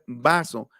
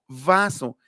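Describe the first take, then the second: First: The first sound uses both lips together. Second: The first sound uses lower lip and teeth. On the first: The speaker calls it right. "En realidad se debe pronunciar vaso" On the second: The speaker calls it wrong. "ni tampoco vaso. Es incorrecto"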